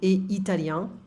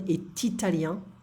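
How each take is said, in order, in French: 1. Le t de « est » reste muet devant « italien ». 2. Le t de « est » se lie à « italien ». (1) "without the liaison" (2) "I could add an liaison"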